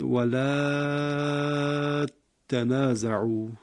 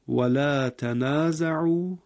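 First: The vowel of la is lengthened, t doubled. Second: The vowel of la is short, t single.

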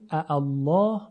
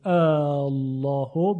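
First: Two hamzas are heard, the second one softened. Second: The opening vowel is drawn out long. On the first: "همزه دوم هم تسهیلش کنیم" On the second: "به مد خونده بشه"

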